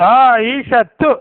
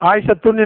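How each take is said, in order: First: The name ends on a vowel without n. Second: The name ends with an added n sound. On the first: The speaker calls it right. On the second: The speaker calls it wrong.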